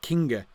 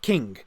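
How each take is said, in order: First: The word ends with an extra vowel. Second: The word ends on the consonant. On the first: The speaker calls it wrong. "it's not kinga" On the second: The speaker calls it right. "no terminal E"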